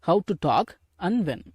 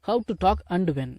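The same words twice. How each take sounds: First: The word 'and' is said as 'an'. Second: The word 'and' is said with a full d. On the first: The speaker calls it right. "அன் அப்படின்னு உச்சரிங்க" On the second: The speaker calls it wrong. "அது நல்லா இருக்காது பேசுறதுக்கு"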